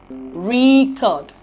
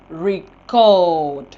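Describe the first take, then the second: First: The stress is on the first syllable. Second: The stress is on the second syllable. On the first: It is used as a noun. "the first syllable is assigned the primary stress in the noun or adjective form" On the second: It is used as a verb. "the second syllable in the verb form"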